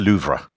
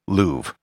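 First: It is said with a French pronunciation. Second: It is said with an English pronunciation. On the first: "In French, the name would be pronounced Musée du Louvre" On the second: "the most standard English pronunciation of the museum"

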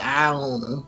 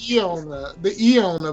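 First: The name begins with an 'eye' sound. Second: The name begins with an 'ee' sound. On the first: The speaker calls it right. "but they say I on her" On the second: The speaker calls it wrong. "I was gonna pronounce the E on her"

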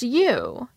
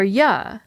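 First: The word has a full, stressed vowel. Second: The word is reduced to a short 'ya'. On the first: The speaker calls it right. "or just you" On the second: The speaker calls it wrong. "But he wouldn't say"

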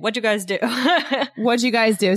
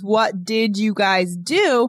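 First: Spoken fast, with 'did' reduced to a 'd' sound. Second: Every word is pronounced clearly, with 'did' in full. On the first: "we're fast" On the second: "what we were writing out as my words is"

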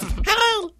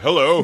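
First: The voice is high and squeaky. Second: The voice is low and deep. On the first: This is how it sounds to us. "But to us" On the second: This is how it sounds at his level. "It's a baritone"

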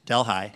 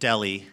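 First: The name is said differently from its spelling. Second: The name is said the way it is spelled. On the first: "but pronounced Delhi" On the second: "spelled like Delhi"

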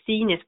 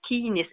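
First: The word begins with a soft s sound. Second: The word begins with a hard k sound. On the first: This is the early modern Latin pronunciation. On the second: This is the classical Latin pronunciation.

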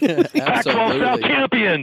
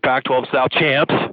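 First: It is said loudly, with lively energy. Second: It is said flatly, with little energy. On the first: The speaker calls it right. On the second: The speaker calls it wrong.

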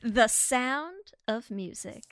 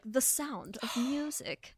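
First: It is said in a normal voice. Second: It is said in the Baroness's put-on voice.

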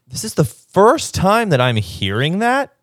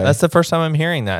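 First: The voice is lively with varied pitch movement. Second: The voice is flat with little pitch movement. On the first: He seems to care. "Let me try again" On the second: He doesn't care. "there's no inflection in his voice"

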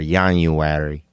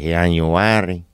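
First: It is said in a plain accent. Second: It is said in a Latino accent.

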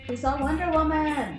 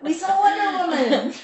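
First: It is said plainly, with little feeling. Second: It is said with lots of feeling and energy.

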